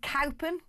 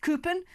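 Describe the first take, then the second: First: Cowpen with cow as in cattle; pronounced as spelt. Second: Coopen with an oo in place of ow; Coopen, the local form of Cowpen; local pronunciation. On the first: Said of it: "pronounced Coopen". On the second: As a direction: say Coopen as COO-pun. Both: Shown as a demonstration.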